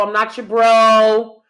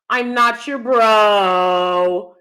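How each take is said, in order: First: Stressing bro; firm. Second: Not stressed hard, slowly; slow, emphatic. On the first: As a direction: bro drawn out firmly. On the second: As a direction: lean on not, slow and deliberate. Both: Shown as a demonstration. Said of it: "I'm not messing with no dude calling me bro".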